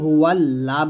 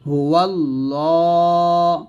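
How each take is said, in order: First: The L is thin with a clear a vowel. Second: The L is heavy with a dark vowel. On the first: The speaker calls it wrong. "আমরা এখানে অনেকে হুয়াল লা বলি" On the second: The speaker calls it right. "ল বলে পড়তে হবে বা মোটা করে পড়তে হবে"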